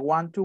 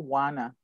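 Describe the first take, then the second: First: Both words are said in full. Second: The words are merged into one reduced word. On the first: "En vez de want to" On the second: "reducciones que hacen"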